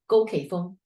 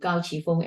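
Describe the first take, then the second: First: The name is pronounced the Cantonese way. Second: The name is pronounced the Mandarin way. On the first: This is how they called themselves natively. "the language that they use are Cantonese" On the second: This is the official national language form. "I'm using the Mandarin pronunciation for their names"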